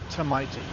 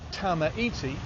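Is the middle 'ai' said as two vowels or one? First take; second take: one; two. First: The middle vowels merge into one sound. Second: The middle vowels are said separately. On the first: The speaker calls it right. "the A I in the middle is pronounced I" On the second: The speaker calls it wrong. "looks like it should be said tamaiti"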